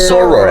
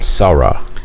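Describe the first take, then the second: First: The word ends with an 'or' sound. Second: The word ends in an open 'ah' vowel. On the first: The speaker calls it right. "I know the word soror" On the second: The speaker calls it wrong. "I want to say this right, Sarah. That's how you say it, right?"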